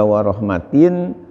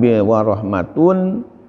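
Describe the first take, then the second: First: The word ends with an 'in' sound. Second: The word ends with an 'un' sound. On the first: The word is joined in grammar to 'khairin'. "bisa juga warahmatin" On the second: The word is joined in grammar to 'udhunun'. "Kata-kata rahmatun tadi dibaca bisa dua macam"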